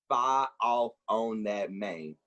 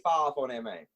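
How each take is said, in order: First: The phrase is spoken slowly and deliberately. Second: The phrase is spoken at normal conversational speed.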